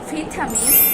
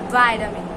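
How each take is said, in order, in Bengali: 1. প্রথম সিলেবলে একটি ছোট 'i' ধ্বনি আছে। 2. প্রথম সিলেবলে একটি লম্বা 'eye' ধ্বনি আছে। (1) "ব্রিটিশরা বলে থাকে" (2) "আমেরিকানরা বলে"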